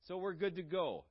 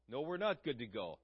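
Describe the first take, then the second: First: Breezy, complacent conclusion; mock self-assurance. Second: NOT stressed, pitch falling after it; flatly contradict, leaning on "not"; firm rebuttal. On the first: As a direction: voice a self-satisfied excuse, pitch held up. Complacent claim, then refuted. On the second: Real, not acted. Refutes the complacent claim just voiced.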